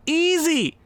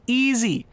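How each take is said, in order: First: Smug. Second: Said in the usual way. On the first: Real, not acted. Repeats easy with mock bravado.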